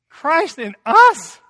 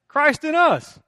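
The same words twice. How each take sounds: First: It is said with wonder, rising like a question. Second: It is said flatly, with casual indifference. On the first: The truth is received as astonishing. The speaker calls it right. "Even in me?" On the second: The truth is taken for granted. The speaker calls it wrong. "well, yeah"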